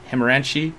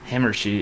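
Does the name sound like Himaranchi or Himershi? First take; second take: Himaranchi; Himershi. First: The name is said as Himaranchi. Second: The name is said as Himershi. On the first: The speaker calls it wrong. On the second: The speaker calls it right.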